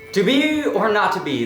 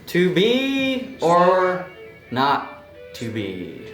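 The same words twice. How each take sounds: First: It is said very fast. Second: It is said very slowly, word by word.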